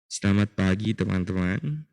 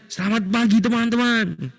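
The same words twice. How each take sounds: First: It is said flatly, with little energy. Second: It is said lively, with lots of energy. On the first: The speaker calls it wrong. "kalian bilangnya seperti ini" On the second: The speaker calls it right. "Buat seantusias mungkin"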